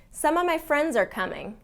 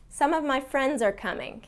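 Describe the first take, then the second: Both takes have the same delivery.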